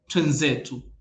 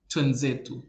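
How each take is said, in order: First: The two words run together as twenzetu. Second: The two words run together as twenzetu.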